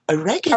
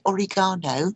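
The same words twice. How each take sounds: First: It is pronounced the American way. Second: It is pronounced the British way. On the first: "I'd have to buy oregano" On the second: "instead of getting oregano"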